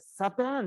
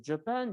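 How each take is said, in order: First: The word begins with an S sound. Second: The word begins with a J sound. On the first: This is how Kiribati speakers say it. "キリバス語はJ の発音がないので" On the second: This is how English speakers say it. "英語で言うとJapan"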